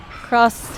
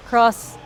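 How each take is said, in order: Both takes have the same delivery.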